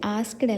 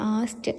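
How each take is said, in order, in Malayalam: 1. k യും അവസാനത്തെ d യും രണ്ടും ഉച്ചരിക്കുന്നു. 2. k ഒഴിവാകുന്നു, സാധാരണ 'st' ആയി അവസാനിക്കുന്നു. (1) "ആസ്ക്ഡ് അല്ല ഉച്ചാരണം വരിക"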